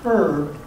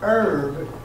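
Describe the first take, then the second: First: The H at the start is pronounced. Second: The H at the start is silent. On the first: The speaker calls it wrong. "not herb" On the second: The speaker calls it right. "The H is kind of silent"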